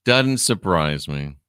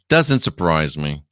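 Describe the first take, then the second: First: Slow, dry "Doesn't surprise me"; slow dry repeat. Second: Said in the usual way. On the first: Shown as a demonstration. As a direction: drag it out unimpressed.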